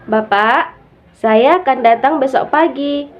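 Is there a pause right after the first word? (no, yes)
yes. There is a pause right after the first word. The speaker addresses the father and says the speaker will come. "makna yang pertama bahwa saya yang akan datang besok pagi"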